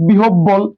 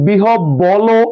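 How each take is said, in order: First: "বিহব বল" ending on a bare ল, no vowel after it; correct consonant ending. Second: "বিহব বলো" with an added o after the ল; wrong vowel ending. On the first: Teacher showing that ল carries no vowel, "বিহব বল" ending in plain l. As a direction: close "বিহব বল" on the l sound. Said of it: "লয়ের সাথে কোনো স্বরধ্বনি উচ্চারিত হয় নাই". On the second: Teacher asking if we ever say it so, wrong o ending on "বিহব বলো". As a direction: slowly sound out a final -lo in "বিহব বলো". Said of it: "আমরা কি বলি কখনো". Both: Shown as a demonstration.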